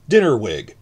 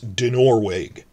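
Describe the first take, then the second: First: The stress is on the first syllable. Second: The stress is on the second syllable. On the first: The speaker calls it wrong. "I'm stressing the first syllable" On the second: The speaker calls it right. "The second, try to stress the second syllable"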